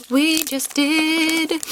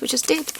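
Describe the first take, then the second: First: Slow drawn-out. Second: Breathy whispered aside, unvoiced. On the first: Pretend. To viewers about the Japanese names, slow and drawn out. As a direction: stretch each word out slowly, higher. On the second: To viewers about the Japanese names, whispered. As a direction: whisper it like a secret. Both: Repeating her own remark.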